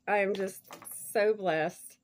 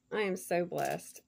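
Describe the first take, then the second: First: Louder second take, leaning on "so blessed"; emphatic repeat. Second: Said in the usual way. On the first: Real, not acted. Repeating her thanks to the sender with louder emphasis. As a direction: push harder on "so blessed" the second time.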